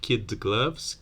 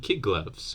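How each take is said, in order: First: Kid ends in a d sound before gloves. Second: Kid ends in a g sound before gloves. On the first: "instead of kid gloves" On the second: "you end up saying kid gloves"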